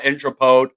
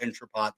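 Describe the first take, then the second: First: The last syllable rhymes with note. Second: The last syllable rhymes with pot. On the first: This is how some other people say it. "some people call it Intrapote" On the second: This is how the speaker personally says it. "I call it Intrapot"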